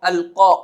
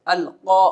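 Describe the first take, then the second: No difference in how they are said.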